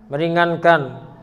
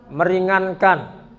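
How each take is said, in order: No difference in how they are said.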